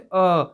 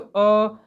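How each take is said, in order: First: The vowel is said at a middle pitch. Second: The vowel is said at a high pitch. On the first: "मध्य भाग से बोलेंगे तो मध्यम भाग से" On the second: "ऊपरी भाग से बोला रहेगा"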